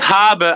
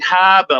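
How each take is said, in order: First: It is said in a plain, non-Boston accent. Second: It is said in a Boston accent.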